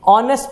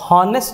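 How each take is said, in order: First: The word starts with a vowel sound. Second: The word starts with an h sound. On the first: The speaker calls it right. "ऑनेस्ट पढ़ते हैं, ओ का pronunciation आता है पहले" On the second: The speaker calls it wrong. "ये हॉनेस्ट नहीं पढ़ते हमें"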